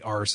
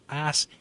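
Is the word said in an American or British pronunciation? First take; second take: British; American. First: The word is said the British way, 'arse'. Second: The word is said the American way, 'ass'. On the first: It matches the original writer's own usage. The speaker calls it right. "It should be arse" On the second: It suits an American audience. The speaker calls it wrong. "I mispronounced that"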